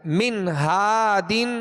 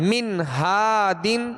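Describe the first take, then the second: The two takes are said the same way.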